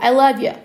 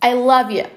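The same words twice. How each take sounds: First: It is said fast, 'you' reduced toward 'yeah'. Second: The same.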